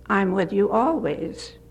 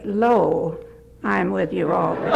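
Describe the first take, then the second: First: Said in the usual way. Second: "Lo" set apart by a pause before the rest; stress on LO. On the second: Retold or imitated. Man correcting his preacher on a verse, stress on "Lo". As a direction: land on "Lo", pause, then finish quickly. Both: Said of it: "let's get that straight".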